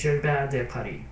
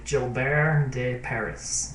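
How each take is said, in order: First: The name is pronounced with a French accent. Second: The name is pronounced with an English accent. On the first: "If you speak French, I will be saying this correctly" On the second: "say it in English"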